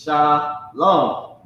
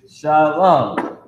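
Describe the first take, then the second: First: Shalom split into "shah", pause, "lone"; alternative pronunciation. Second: Shalom as sha-LAHN, in one word; main pronunciation. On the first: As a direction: say Shalom slowly in two separate beats, sha... lone. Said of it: "another way to say it is". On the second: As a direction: say Shalom with an open "ah" in the second syllable. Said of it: "the main way is". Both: Shown as a demonstration.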